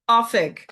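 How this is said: It is said the Ulster way, starting with 'oh'.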